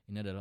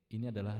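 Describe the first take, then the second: First: The voice is dry with no added reverb. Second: The voice has a large hall-like reverb. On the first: "ini adalah original" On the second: "Ini adalah reverb hall"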